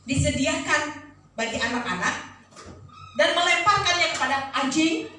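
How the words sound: The tone is harsh and confrontational. The speaker calls it wrong.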